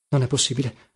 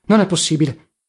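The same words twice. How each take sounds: First: Low-key grumble, softer; grumbling. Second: Grumbled repeat at normal volume; grumbling. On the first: Pomino pacing the room, grumbling under his breath. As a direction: grumble it to yourself. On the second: Pomino pacing the room, grumbling insistently. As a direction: grumble it out more firmly. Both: A narrator's reading. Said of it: "passeggiava per la stanza brontolando".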